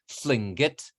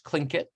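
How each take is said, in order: First: It is said with the native-language pronunciation. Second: It is said with the usual English pronunciation. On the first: "in the language itself is Tlingit" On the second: "people usually pronounce it in English Tlingit"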